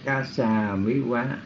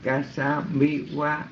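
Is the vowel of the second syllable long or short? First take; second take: long; short. First: The second syllable has a long vowel. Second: The second syllable has a short vowel. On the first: The speaker calls it wrong. "chứ không phải là" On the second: The speaker calls it right. "như hồi nãy Huynh Hạnh Phước đọc là chính xác"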